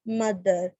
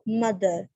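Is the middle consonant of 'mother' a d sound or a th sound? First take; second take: d sound; d sound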